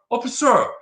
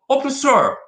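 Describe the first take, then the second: The two takes are said the same way.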